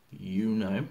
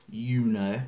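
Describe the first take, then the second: No difference in how they are said.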